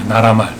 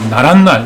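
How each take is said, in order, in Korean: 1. 니은 소리 없이 부드럽게 발음됩니다. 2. 말 앞에 니은 소리가 덧붙습니다. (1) "그냥 부드럽게" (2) "니은 소리가 덧나는 그 센 이런 발음"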